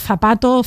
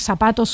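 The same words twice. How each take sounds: First: The first sound is a tongue-between-teeth th. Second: The first sound is a hissing s. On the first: This pronunciation is less socially prestigious. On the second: This pronunciation is more socially prestigious.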